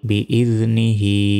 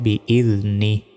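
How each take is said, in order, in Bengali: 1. শব্দটি পূর্ণ 'hi' অংশ দিয়ে শেষ হয়। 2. শব্দটি 'hi' ছাড়া 'ni' দিয়ে শেষ হয়।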